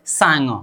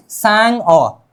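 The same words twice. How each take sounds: First: सांग said straight as one word, "sa-ngo"; the correct सांग, syllables linked smoothly; straight joined pronunciation. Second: सांग अ broken in two, "saang, o"; wrongly split word. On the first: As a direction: say सांग without a break, ng leading into the vowel. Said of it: "लेकिन सीधा बोलेंगे". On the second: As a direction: split सांग अ, closing on ng before a separate vowel. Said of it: "फिर ऐसा नहीं करना". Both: Shown as a demonstration.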